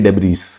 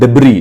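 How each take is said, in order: First: The word ends with an audible s sound. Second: The word ends without any s sound. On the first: The speaker calls it wrong. "उसको कहते हैं डेब्रीज" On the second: The speaker calls it right. "This एस is silent"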